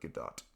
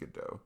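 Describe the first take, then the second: First: The final T is clearly pronounced. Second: The final T is left silent. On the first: "It's spelled with a T at the end, like" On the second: "But I think it's pronounced"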